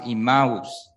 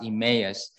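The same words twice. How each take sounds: First: Emmaus is said with the Greek pronunciation. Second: Emmaus is said with the English pronunciation. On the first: "if you do read it from Greek, it's pronounced Emmaus, which is like Chinese pronunciation" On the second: "English is pronounced Emmaus"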